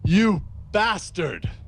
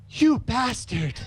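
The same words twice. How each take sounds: First: It is read in the reader's normal voice. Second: It is read in a put-on lady's voice.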